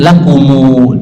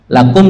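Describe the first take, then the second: First: The word ends with an added 'u' vowel. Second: The word ends on a closed 'm' sound. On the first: This is the reading of another transmission. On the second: This is the common everyday reading.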